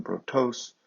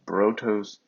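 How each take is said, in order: First: Brotos with the stress on the final syllable, bro-TOS; accent on the last syllable. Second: Brotos with the stress on the first syllable, BRO-tos; paroxytone accent. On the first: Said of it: "so the accent's on the last syllable". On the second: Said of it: "but brotos, a paroxytone". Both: Shown as a demonstration.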